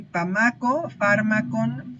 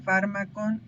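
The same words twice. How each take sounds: First: Fármacon stretched out slowly, syllable by syllable, pitch raised; slow, drawn-out fármacon. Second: Said in the usual way. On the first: Shown as a demonstration. Teacher sounding out a Linear B word for students, slow and careful. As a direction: spell out fármacon slowly for the class. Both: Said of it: "Y pamaco, fármacon".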